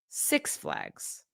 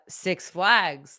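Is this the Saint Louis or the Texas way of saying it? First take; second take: Texas; Saint Louis. First: It has the Oklahoma-Texas stress pattern. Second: It has the Saint Louis stress pattern.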